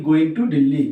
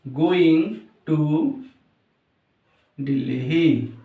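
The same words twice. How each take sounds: First: Said in the usual way. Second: Word by word with long pauses; slow dictation. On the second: Shown as a demonstration. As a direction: dictate "going ... to ... Delhi" as if writing. Dictates while writing it out. (रुक-रुक कर, लिखते हुए बोलना)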